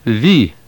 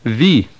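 First: It starts with v and has an ee vowel. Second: It starts with v and has an ee vowel.

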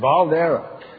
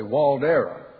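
First: The name begins with a V sound. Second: The name begins with a W sound. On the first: The speaker calls it right. "it's a German name, and it's Waldera. You put the V" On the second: The speaker calls it wrong. "all the announcers at the horse show say Waldera, because it starts with a W"

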